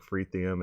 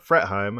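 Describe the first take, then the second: First: The last syllable sounds like 'heum'. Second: The last syllable sounds like 'heim'. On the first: The speaker calls it wrong. "I usually say something like Fretheum" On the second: The speaker calls it right. "I think I'm finally saying that right"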